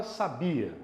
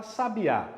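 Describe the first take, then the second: First: "sabia" with "bi" stressed; "sabia", stressed "bi", light final "a"; stress on middle syllable. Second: "sabiá" with the final "á" stressed; "sabiá", stress landing on the last vowel; stress on the last syllable. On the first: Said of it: "Não é o bi?". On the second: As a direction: lean on the ending of "sabiá": sa-bi-Á. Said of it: "É a última, não é?". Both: Shown as a demonstration.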